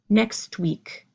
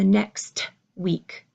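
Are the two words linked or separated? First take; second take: linked; separated. First: The two words are pushed together. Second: The two words are said separately. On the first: "you hear my next pushing together into the word week" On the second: "you don't hear next week"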